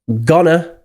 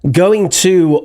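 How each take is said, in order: First: The words are reduced and run together. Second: Both words are said fully and separately.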